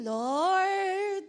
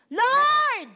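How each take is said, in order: First: Said in the usual way. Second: Loud, high desperate shout; shouted cry. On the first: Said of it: "hindi mo pa pwedeng sabihin". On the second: Retold or imitated. Preacher acting the blind men shouting to Jesus, loud desperate cry. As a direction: cry out to the Lord at full voice. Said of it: "they shouted".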